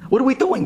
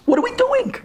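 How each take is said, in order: First: Said in the usual way. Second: Much higher, exasperated cry; outcry. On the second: Real, not acted. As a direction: throw the question up in despair. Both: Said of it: "We're putting tuxedos on donkeys?".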